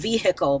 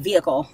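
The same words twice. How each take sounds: First: The H sound in the middle is pronounced. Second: The H sound in the middle is silent. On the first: This is how some other people say it. "some people say they pronounce the H" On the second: This is how the speaker normally says it. "I don't say it that way. I say vehicle"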